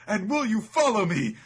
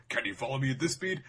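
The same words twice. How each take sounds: First: High, loud swooning echo; hammed-up smitten heroine; lovestruck misreading. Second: Lightly voiced fighter's taunt; mock battle challenge; recalled challenge. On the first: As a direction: blurt it back far higher and louder. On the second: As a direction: quote the challenge, slightly raised. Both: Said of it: "she recalls".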